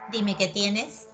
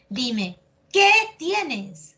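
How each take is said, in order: First: The word qué is said without emphasis. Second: The word qué is said with strong emphasis. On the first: The speaker calls it wrong. "¿Acaso es dime qué tienes? No" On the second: The speaker calls it right. "vas a ver que tiene énfasis"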